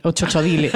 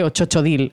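First: Chochodile read as written, final e sounded; Spanish spelling pronunciation. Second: Chochodile said the French way, final e silent; French pronunciation. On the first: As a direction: say Chochodile as cho-cho-DI-le, Spanish style. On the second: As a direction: say Chochodile as cho-cho-DIL, no final e. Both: Shown as a demonstration. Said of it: "Se escribe Chochodile".

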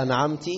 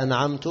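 First: "أنعمت" ending in ti; ta with kasra. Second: "أنعمت" ending in tu; ta with damma. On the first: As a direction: say "أنعمت" as an'amti. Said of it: "أو كسرها". («أنعمت» بكسر التاء) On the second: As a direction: say "أنعمت" as an'amtu. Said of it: "ضم تاء أنعمت". («أنعمت» بضم التاء) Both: Shown as a demonstration.

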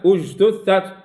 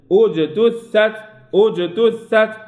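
First: أجتثت with j run straight into t; no qalqala. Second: Slow أجتثت with bounced j; letter by letter. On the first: Teacher showing the error to avoid, unbounced jim. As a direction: skip the bounce on j in أجتثت, as a mistake. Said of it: "لا". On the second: Teacher correcting students, slow letter-by-letter qalqala. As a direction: echo the j in أجتثت, then each letter fully. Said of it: "حرف، حرف". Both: Shown as a demonstration.

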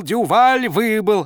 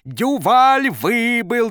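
First: High loud slow cheer; jubilant coach. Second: High, loud, drawn-out triumphant cry; jubilant coach. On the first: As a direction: repeat it, still gloating. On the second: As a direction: crow it with glee. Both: A narrator's reading. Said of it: "Тренер вдруг пустился в пляс".

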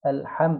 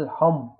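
First: First الحم with a light, unrounded "a" into a closed m; lips closed in smile. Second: الحم darkened towards "al-hom"; wrongly rounded lips. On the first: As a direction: say الحم thin and open-vowelled, closing on m. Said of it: "على هيئة المبتسم بس مقفولين". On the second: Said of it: "وهو ضم الشفتين كده". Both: Shown as a demonstration.

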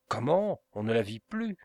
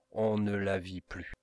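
First: Surprised cry. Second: Said in the usual way. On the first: A narrator's reading. Bertolini cries out to Montoni, surprised and rising. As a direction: cry out in disbelief. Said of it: "s'écria Bertolini".

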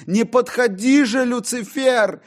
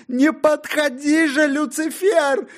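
First: High, loud plea; frightened cry. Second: Higher, with a cry in the voice; crying plea. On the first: John cries out to Lucifer, frightened. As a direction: push the devil away. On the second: John begs Lucifer again, crying. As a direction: beg through tears. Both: Acted.

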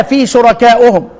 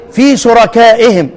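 First: "شركائهم" said shuraka'uhum, with u vowels; damma ending. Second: "شركائهم" said shuraka'ihim, with i vowels; kasra ending. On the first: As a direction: end "شركائهم" on -u-hum. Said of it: "خدها على الحكاية". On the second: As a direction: end "شركائهم" on -i-him. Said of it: "لا، خليها في شركائهم". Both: Shown as a demonstration.

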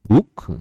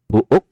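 First: Buk said short and clipped, louder; correct pronunciation. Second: Buuk read with a long oo as spelt; spelled-out reading. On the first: Preacher giving the real sound of buk. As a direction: snap out buk the proper English way. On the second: Preacher showing the spelling of Buuk. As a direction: stretch Buuk the way it is written. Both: Shown as a demonstration. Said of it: "Buuk dibaca".

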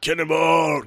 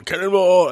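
First: High called-out cannonball; cannonball yell. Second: Shouted high cannonball; full shout before the jump; cannonball yell. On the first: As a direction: sing it out like a kid jumping. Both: Retold or imitated. Quoting the film's cannonball yell.

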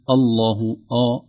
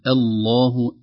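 First: "الله" with the opening hamza thickened like the heavy lam; slow "الله", first vowel wrongly heavy. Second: "الله" with a thin light opening hamza and a thick lam; slow, careful "الله", light first vowel; light hamza, heavy lam. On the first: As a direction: say "الله" with a dark, full opening "آ". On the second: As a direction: start "الله" lightly, then darken the long L. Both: Shown as a demonstration. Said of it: "أي نرقق الهمزة ونغلظ اللام".

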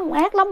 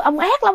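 First: Said in the usual way. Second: Ác lắm cried out high; possessed son screaming at father; angry cry. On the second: Retold or imitated. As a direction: fling "ông ác lắm" as a high accusation. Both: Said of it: "vừa đánh vừa chửi".

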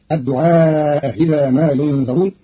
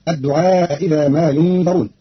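First: Second hamza eased toward i; الدعاء إذا said ad-du'aa-iza; Qalun reading. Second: Both hamzas full in الدعاء إذا; slow, clear double glottal stop; standard reading. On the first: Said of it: "فتصير". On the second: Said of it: "بتسهيل الهمزة الثانية". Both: Shown as a demonstration.

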